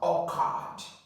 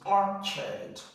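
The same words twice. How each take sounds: First: The second syllable has a full vowel. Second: The second syllable has a reduced uh vowel. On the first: The speaker calls it wrong. "Many people would easily mispronounce this as orchard. It's not orchard" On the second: The speaker calls it right. "the second part here you are going to have a, a sound"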